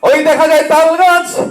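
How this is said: It is recited in a speechmaking leader's voice. A leader is reciting it on stage. "নেতা যখন এটা আবৃত্তি করবে তখন অন্যরকম হবে না?"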